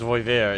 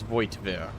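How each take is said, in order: First: The name is said without a T sound. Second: The name is said with a T sound. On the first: The speaker calls it wrong. "I wasn't too far off with like mine" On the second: The speaker calls it right. "You still pronounce that T"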